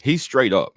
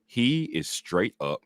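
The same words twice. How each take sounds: First: Said in the usual way. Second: He is straight up, each word drawn out slowly; slow deliberate "He is straight up"; slow, emphatic restatement. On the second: Shown as a demonstration.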